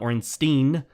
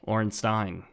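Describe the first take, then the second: First: The last syllable sounds like 'steen'. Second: The last syllable sounds like 'stine'. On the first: The speaker calls it wrong. "It was not Ornstein. You don't drink from a steen" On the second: The speaker calls it right. "you drink from a stein. Ornstein"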